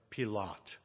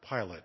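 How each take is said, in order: First: The name is said with a foreign pronunciation. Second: The name is said with an English pronunciation.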